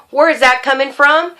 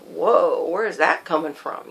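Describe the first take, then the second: First: Imagined demand for an explanation; challenging question. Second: Low, soft inner voice; thinking to oneself. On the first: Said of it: "I didn't try to ask him". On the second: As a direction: murmur it privately in quiet surprise. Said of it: "thinking to myself". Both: Retold or imitated.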